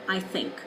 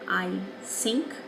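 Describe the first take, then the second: First: The word begins with a th sound. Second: The word begins with a d sound. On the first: The speaker calls it right. "rather than I think" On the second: The speaker calls it wrong. "as a D"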